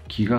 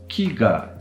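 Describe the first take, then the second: First: The pitch does not drop between ki and ga. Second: The pitch drops between ki and ga. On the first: The word means spirit. "ki as in spirit doesn't work like that" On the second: The word means tree. "you can hear the drop between the ki and the ga"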